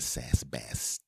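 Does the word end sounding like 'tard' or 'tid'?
tid. The last syllable is said as 'tid'. The speaker calls it right.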